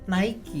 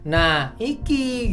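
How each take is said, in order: First: It is said as one word, like Nike. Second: It is split into two parts, nah and iki. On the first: It sounds the same as the famous brand. "secara bunyi itu akan tertulis bacanya Nike" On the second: It is read as a Javanese phrase. "karena saya orang Jawa bacanya nah iki"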